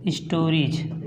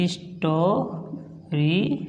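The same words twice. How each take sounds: First: स्टोरीज said low with clear final ज; crisp repeat of स्टोरीज; modelled pronunciation. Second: स्टोरीज drawn out very slowly and softly; स्टोरीज stretched long and quiet; slow modelled word. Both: Shown as a demonstration. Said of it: "इसलिए इसको पढ़ेंगे".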